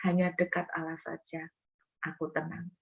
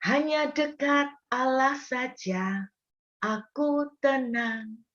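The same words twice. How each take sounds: First: Soft, near-whispered assurance; hushed calm. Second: Slow, hushed and calm, higher pitch. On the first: David quietly calming his soul, much softer. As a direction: let it fade into quiet trust. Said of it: "Daud berkata begini". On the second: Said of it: "Daud juga berkata begini". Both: Acted.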